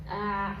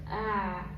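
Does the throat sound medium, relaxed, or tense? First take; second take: medium; medium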